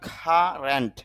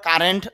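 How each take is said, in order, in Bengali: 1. প্রথম k বাতাসের ফুঁ সহ উচ্চারিত হয়। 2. প্রথম k বাতাসের ফুঁ ছাড়া উচ্চারিত হয়। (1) "শুদ্ধ উচ্চারণটা হবে কারেন্ট, ... মুখ থেকে একটু অতিরিক্ত বাতাস বের হয়" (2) "যদিও আমরা কারেন্ট বলি"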